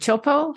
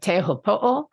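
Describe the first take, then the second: First: The name is clipped to two short syllables. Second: The name is said in full, all syllables. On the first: The speaker calls it wrong. "people have generally been calling Chopo" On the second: The speaker calls it right. "trying to kind of get that pronunciation right"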